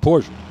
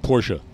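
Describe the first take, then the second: First: The name is said the everyday English way. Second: The name is said the German way.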